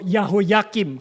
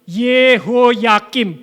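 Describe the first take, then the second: First: The name begins with the syllable 'yah'. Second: The name begins with the syllable 'ye'. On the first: The speaker calls it wrong. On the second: The speaker calls it right. "Yud He di depan itu bacanya selalu Ye"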